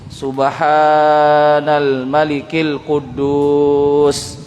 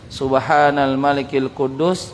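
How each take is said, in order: First: The vowels are drawn out long. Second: The vowels are said at normal length.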